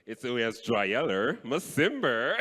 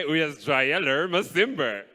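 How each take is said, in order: First: "uyasijwayela masimba" said slowly and deliberately; correcting pronunciation. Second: "Uyasijwayela masimba" said slowly for the crowd to repeat; slow prompt. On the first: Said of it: "No, no, no". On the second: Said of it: "Can everybody just one time say". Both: Shown as a demonstration.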